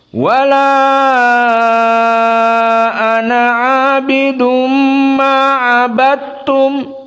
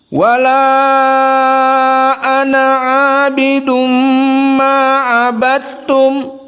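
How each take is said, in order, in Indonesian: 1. Vokal pada 'ana' dibaca sangat panjang. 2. Vokal pada 'ana' dibaca sedang. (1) "kita masuk kepada Al-Isba" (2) "Dalam keadaan tawassut dulu"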